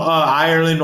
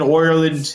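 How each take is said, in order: First: Said in the usual way. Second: Mock-Irish "Ireland", first vowel turned to "oy"; attempted Irish accent. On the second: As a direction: say "Ireland" as "Oireland", in a badly faked Irish accent. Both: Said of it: "I can't do an Irish accent".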